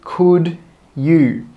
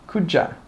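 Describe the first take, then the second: First: Both words are said fully and separately. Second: The words are joined, with you reduced to ya. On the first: The speaker calls it wrong. "We don't say could you" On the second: The speaker calls it right. "We join those together and we say could ya"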